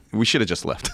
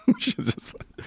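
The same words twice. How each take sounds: First: Said in the usual way. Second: Breathless laugh through the line. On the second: Real, not acted. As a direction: laugh at your own bad choice. Repeats it while laughing.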